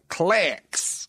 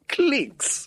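First: It is said in an American accent. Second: It is said in a British accent.

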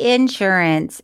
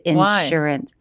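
First: The word is said in a Southern way. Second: The word is said in a standard way. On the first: The speaker calls it wrong. "I used to say insurance, ... it sounds crazy. No, it's very Southern" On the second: The speaker calls it right. "It's insurance"

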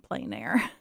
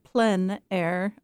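First: The term is said with an English pronunciation. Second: The term is said with a French pronunciation. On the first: "or you can also say" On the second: "comes from the French. So they pronounce it"

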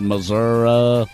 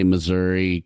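First: It is said the rural Missouri way, drawn out. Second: It is said the urban Missouri way, quickly.

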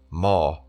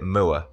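First: The vowel does not sound like 'moo'. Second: The vowel sounds like 'moo' with R added. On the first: "the correct pronunciation being moor" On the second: "I say moor, as a cow says moo, and if you add the R"

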